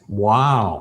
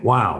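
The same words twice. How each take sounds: First: It is said warmly, with full empathy. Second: It is said casually, without empathy. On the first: The listener feels truly heard. The speaker calls it right. "If you say it with full empathy in context" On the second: It carries no real connection. The speaker calls it wrong. "And it's nothing"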